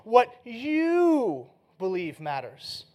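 The stress is on you.

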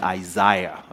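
The word is said in a British accent. "the British English will kick in"

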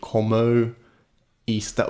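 The vowels glide like English diphthongs. The speaker calls it wrong. "Using our English sounds and our overcomplicated vowels"

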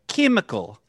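The first vowel sounds like short i.

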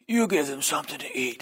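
It is said in a mafia gangster voice.

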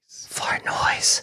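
It is said in a very low voice.

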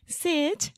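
It is said in a cute, childish voice. The speaker calls it wrong. "he's like, ... like baby voice"

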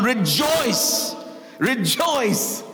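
It is said with enthusiasm and excitement.

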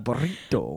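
The R is rolled, with a Spanish-style accent.

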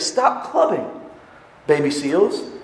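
There is a pause right after "stop".

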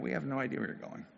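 The line is said quietly, with little emotion. The speaker is confused but keeps his feelings in. "Maybe he was a little more... not so expressed"

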